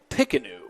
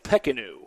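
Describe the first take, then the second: First: The first vowel sounds like an I. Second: The first vowel sounds like an E. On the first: The speaker calls it right. "it's pronounced more like an I" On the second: The speaker calls it wrong. "I have to correct that pronunciation"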